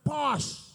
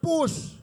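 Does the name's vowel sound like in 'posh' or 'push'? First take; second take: posh; push. First: The vowel sounds like the vowel in 'posh'. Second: The vowel sounds like the vowel in 'push'. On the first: The speaker calls it right. "But it's posh" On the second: The speaker calls it wrong. "A man pronounce it as push"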